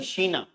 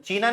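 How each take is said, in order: First: The word begins with an 'sh' sound. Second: The word begins with a 'ch' sound. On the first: The speaker calls it right. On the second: The speaker calls it wrong. "या चीना नहीं"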